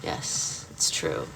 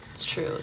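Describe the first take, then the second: First: Voiceless whisper, low and hushed; mock whisper. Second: Said in the usual way. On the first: Streamer to chat, confiding a secret in a whisper. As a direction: hush it like a secret confession. Whispered aside about own expertise.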